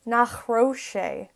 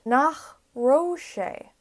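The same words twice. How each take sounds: First: "Nach raibh sé" with a clear throaty ch at the end of "Nach"; ch got right. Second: "Nach raibh sé" said slowly, the ch in "Nach" not quite coming out; slow careful "Nach raibh sé" with a weak ch; first try at the ch. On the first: Teacher nails the Irish ch in Nach, clear and throaty. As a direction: land the guttural ch in "Nach raibh sé". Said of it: "Yes, there we go". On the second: Teacher's first go at the Irish ch in Nach, slow and careful. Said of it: "I'm trying to get the ch". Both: Shown as a demonstration.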